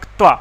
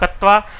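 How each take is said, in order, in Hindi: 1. k बिना किसी स्वर के t से जुड़ता है। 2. पूरा स्वर k और t को अलग करता है। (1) "थोड़ा सा ध्यान दे करके बोलेंगे तो बोला जाएगा क्त्वा।" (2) "कुछ लोग इसको कत्वा बोलते हैं।"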